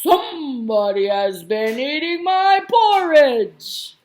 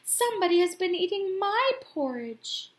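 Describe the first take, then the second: First: It is said in a deep, big, growly voice. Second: It is said in a quiet, soft voice. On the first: "his great big growly voice" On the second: "her quiet voice"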